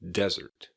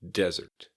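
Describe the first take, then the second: First: The stress is on the first syllable. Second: The same.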